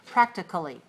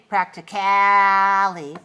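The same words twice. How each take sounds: First: The vowel before the ending is a weak schwa. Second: The vowel before the ending is long and full. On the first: "Make it really short, very short, and weak. Reduce it, uh, schwa sound" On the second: "don't say practically. Don't make it long"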